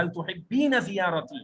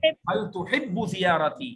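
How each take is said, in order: First: Slow teaching read, تحبین with the added ين ending; feminine form. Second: Slow teaching read, تحب said short with no ending; masculine form. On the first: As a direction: stretch out تحبین clearly for a woman. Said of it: "سامنے خاتون ہے تو اس کے لیے بھی ٹینس change". (خاتون کے لیے آہستہ تحبین واضح ین کے ساتھ) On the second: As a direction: read تحب slowly, ending bare for a man. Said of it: "سامنے مرد ہو تو اس کو کہیں گے". (مرد کے لیے آہستہ تحب بغیر ین کے) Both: Shown as a demonstration.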